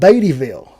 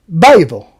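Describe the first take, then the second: First: The name is said in full. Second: The name is said shortened. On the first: "It's called Beattyville" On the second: "a lot of people around here say Bayville"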